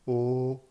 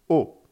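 First: It is said with the first tone. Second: It is said with the fourth tone.

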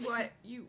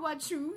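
First: The word after 'want' sounds like 'you'. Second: The word after 'want' sounds like 'chew'. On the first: The speaker calls it right. "You want you" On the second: The speaker calls it wrong. "when they want to say you, and they say chew, that bugs"

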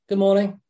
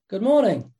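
First: The greeting sounds flat and indifferent. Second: The greeting sounds warm and caring. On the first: It is just a passing remark about the day. The speaker calls it wrong. "One says, yeah, it's a good morning" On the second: The speaker cares about the person and wishes them well. The speaker calls it right. "I really care about you and I hope you're having a great day, just by the tone"

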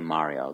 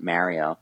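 First: It is said with an Italian accent. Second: It is said with an American accent. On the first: "like the authentic Italian accent" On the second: "We just kind of pronounced it with an American accent"

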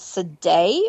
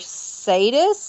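First: The name is pronounced in a French way. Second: The name is pronounced in a non-French way.

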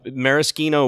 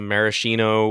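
First: The middle consonant is a hard k sound. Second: The middle consonant is a soft sh sound. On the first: It names the liqueur. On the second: It names the cherries.

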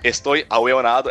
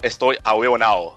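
First: The ending -ado is fully pronounced. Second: The ending is reduced to -ao, Chilean style.

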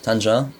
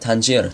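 First: The name is said with a local Moroccan pronunciation. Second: The name is said with an English pronunciation.

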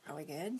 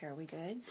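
The two takes are said the same way.

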